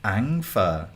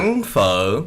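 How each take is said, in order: First: Learner's Vietnamese with tones missed; attempted Vietnamese accent. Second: Tonal Southern Vietnamese, "pho" curling up; Southern Vietnamese accent. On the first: Repeating after a friend, clumsy Vietnamese accent. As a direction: copy Vietnamese, not hitting the tone. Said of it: "I can't hit that pho". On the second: Teaching a friend to say eat pho, Southern Vietnamese accent. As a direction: model the Vietnamese tones clearly. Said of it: "the ultimate Southern Vietnamese accent". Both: Shown as a demonstration.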